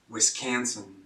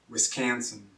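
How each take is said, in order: No difference in how they are said.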